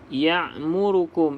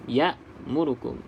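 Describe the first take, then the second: First: A deep throat sound follows the first syllable. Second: A glottal stop follows the first syllable. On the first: The speaker calls it wrong. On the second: The speaker calls it right.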